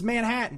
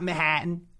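First: It is said without a Jersey accent. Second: It is said with a thick Jersey accent. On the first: "It's Manhattan" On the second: "It's not Manhattan"

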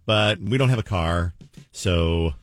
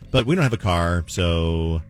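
First: There is a long pause before 'so'. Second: There is a short pause before 'so'.

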